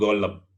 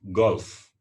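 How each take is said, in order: First: An extra 'e' vowel follows the L sound. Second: No vowel is added after the L sound. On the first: The speaker calls it wrong. "bukan golep" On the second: The speaker calls it right.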